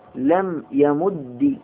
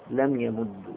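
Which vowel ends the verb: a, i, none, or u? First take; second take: i; u. First: The doubled final d ends with an i vowel. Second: The doubled final d ends with a u vowel. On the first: "بكسر" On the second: "مع الإدغام أن أضم"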